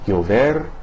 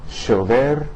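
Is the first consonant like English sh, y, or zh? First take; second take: y; sh. First: The first consonant sounds like English y. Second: The first consonant sounds like English sh. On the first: "similar to the Y in the English word yo-yo" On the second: "the S H sound uh, of the English word cashier"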